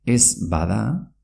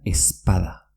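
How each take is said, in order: First: Said in the usual way. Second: "espada" as es-pada, b hardened to p. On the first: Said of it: "se pronuncia espada". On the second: Shown as a demonstration. Teacher shows ez bada merging, b becomes p. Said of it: "una Z P".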